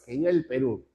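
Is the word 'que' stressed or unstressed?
unstressed. The word que is unstressed. The speaker calls it right. "es que viva el Perú"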